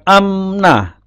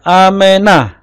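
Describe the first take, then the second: First: No vowel is sounded between the m and n. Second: A short e vowel is sounded before the n. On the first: The speaker calls it wrong. "bukan amnah" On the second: The speaker calls it right. "disebutkan E-nya, E pendek"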